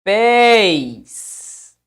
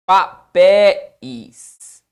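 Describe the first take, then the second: First: "Papéis" as pa... péis, second syllable long and loud; split in two syllables. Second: "Papéis" broken as pa... PÉ... is, slow and loud; split in three syllables. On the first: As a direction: stretch "Papéis" into two beats, PÉIS kept as one drawn-out syllable. ("Papéis" separado em duas sílabas, pa-PÉIS, bem alongado) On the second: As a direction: separate "Papéis" into three beats, the final "is" detached. ("Papéis" separado em três sílabas, pa-PÉ-is, bem devagar) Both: Shown as a demonstration. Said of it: "é esta separação ou papéis".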